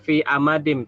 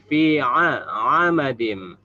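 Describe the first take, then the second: First: The word begins with a plain vowel. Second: The word begins with a throaty ain sound. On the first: The speaker calls it wrong. "Bukan fi amadim" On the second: The speaker calls it right. "tapi fi a amadim"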